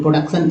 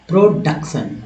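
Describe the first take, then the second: First: The r sound is short and not dragged. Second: The r sound is dragged out and rolled. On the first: The speaker calls it right. "प्रोडक्शन actual उच्चारण है" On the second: The speaker calls it wrong. "र को घसीट कर बोला जाता है"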